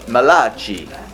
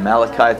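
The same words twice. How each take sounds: First: It is said in an Italian accent. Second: It is said in a plain English accent.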